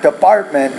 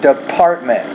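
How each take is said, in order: First: The P is said with little air. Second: The P is said with a puff of air. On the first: The speaker calls it wrong. "not department" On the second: The speaker calls it right. "The P you want to pronounce with more air"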